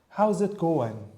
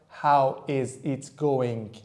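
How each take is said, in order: First: How is is contracted to one syllable. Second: How is is said as two full words. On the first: The speaker calls it right. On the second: The speaker calls it wrong.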